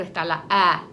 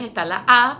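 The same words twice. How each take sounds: First: "A" said as the fronted umlaut vowel ä. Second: Said in the usual way. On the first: Shown as a demonstration. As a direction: pronounce "A" like German ä, lower in pitch. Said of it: "la A con los dos punticos arriba". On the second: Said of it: "la A con los dos punticos".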